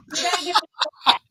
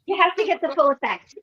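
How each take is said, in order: First: Rushed. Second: Said in the usual way. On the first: Real, not acted.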